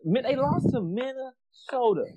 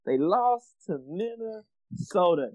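First: Said in the usual way. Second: "They lost to Minnesota" said slowly, each word weighted, with "lost" hit hardest; slow emphatic repeat. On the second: Real, not acted. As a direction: spell it out the second time.

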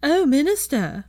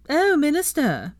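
First: Higher, slow, swooning falsetto; mock falsetto. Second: Higher, slow, swooning falsetto; teasing falsetto. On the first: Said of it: "in a high falsetto". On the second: Acted. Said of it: "Blaise took up the teasing". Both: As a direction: simper at the minister in a fake high voice.

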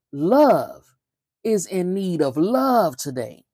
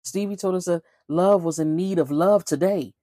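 First: Slow, weighty repeat with Love stressed. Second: Said in the usual way. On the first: Shown as a demonstration. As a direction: hit "Love" hard, then slow down on "is in need of love today".

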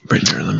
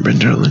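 First: Soft breathy start of a chant; whispered name. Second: Said in the usual way. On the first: Acted.

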